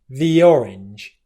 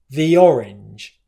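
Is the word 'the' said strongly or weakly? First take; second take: weakly; weakly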